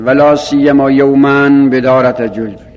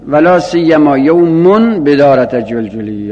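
First: The word after la siyyama ends in -an. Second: The word after la siyyama ends in -un. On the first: The word is read in the accusative case. "مستثنای بلا سیما به نصب خونده شده" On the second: The word is read in the nominative case. "مستثنای بلا سیما به رفع هم خونده شده"

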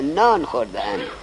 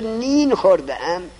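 First: The first word has an 'a' vowel. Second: The first word has an 'i' vowel. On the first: The speaker calls it right. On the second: The speaker calls it wrong.

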